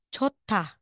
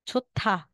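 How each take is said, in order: First: The middle consonant is aspirated, with a puff of air. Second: The middle consonant is aspirated, with a puff of air.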